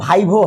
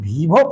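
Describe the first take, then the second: First: The first vowel sounds like 'eye'. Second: The first vowel sounds like 'ee'. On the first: The speaker calls it right. "But देखिए वाकई में ये इन भाइवो है" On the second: The speaker calls it wrong. "ऐसे लोग वीवो पढ़ते हैं इसको"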